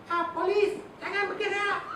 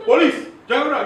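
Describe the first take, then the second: First: Squeaky-high, feeble police order; high-pitched voice. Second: Forceful, raised police order; loud command. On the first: Trainer mocking an officer ordering someone to freeze, high-pitched. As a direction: give the police command in a silly high pitch. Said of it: "if you put a high pitch voice". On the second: Officer ordering someone to freeze, loud and commanding. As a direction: bark the police order with full authority. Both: Shown as a demonstration.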